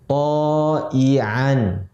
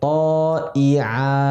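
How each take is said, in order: First: The word ends with an n sound. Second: The word ends on a plain vowel. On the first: The reading continues without stopping. "Menjadi to'ian" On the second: The reading stops at this word. "Kita wakafkan menjadi to'i'a"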